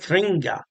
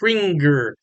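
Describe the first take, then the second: First: The word ends in a plain vowel. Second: The word ends with an r sound. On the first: The speaker calls it right. "I think it's out of Kringa" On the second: The speaker calls it wrong. "People in America want to pronounce that Kringer"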